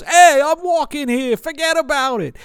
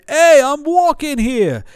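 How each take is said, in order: First: High, loud hammed-up New York shout; mock New York tough guy; New York accent. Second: High, loud New York cabbie shout; hammed-up New York street yell. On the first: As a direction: play the cliché New York hat guy. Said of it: "is if he goes". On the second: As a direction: bark it like a stock New Yorker. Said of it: "one step away from screaming".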